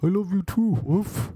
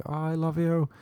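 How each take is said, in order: First: High, put-on talking-dog voice with a woof. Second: Put-on girl doting on her dog. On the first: Dog answering its owner's love, silly high dog voice. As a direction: answer as a doting pooch, pitched well up. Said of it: "She did a dog's voice back". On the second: Girl at the shop to her dog, mock doting. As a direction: coo it to a pet, lightly put on. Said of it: "to her dog, she was like".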